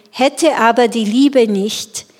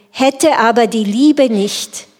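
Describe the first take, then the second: The two takes are said the same way.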